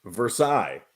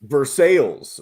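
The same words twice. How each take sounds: First: VERSAILLES as ver-SIGH; French-style pronunciation. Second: VERSAILLES as ver-SALES; local pronunciation. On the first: Co-host giving the proper French name, ver-SIGH. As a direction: say VERSAILLES with a silent ending, like sigh. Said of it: "should really be pronounced Versailles". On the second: Co-host naming the Kentucky town, ver-SALES. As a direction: say VERSAILLES with an English sales ending. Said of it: "which should really be pronounced Versailles". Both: Shown as a demonstration.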